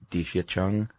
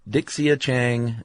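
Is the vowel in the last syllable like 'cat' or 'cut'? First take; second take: cut; cat. First: The last syllable has an 'uh' vowel. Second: The last syllable has an open 'a' vowel. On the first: The speaker calls it right. "is really Dixia Chung, sort of?" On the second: The speaker calls it wrong. "So Dixia Chang is"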